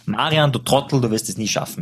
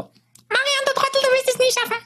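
First: It is said in his normal voice. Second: It is said in a high Mickey Mouse voice.

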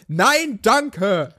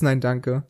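First: It is said loudly and clearly. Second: It is said quietly, almost under the breath. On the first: The refusal is given openly and politely. The speaker calls it right. "wenn man einfach laut Nein, danke sagt" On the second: The refusal is barely acknowledged. The speaker calls it wrong. "so ein leises Nein, danke"

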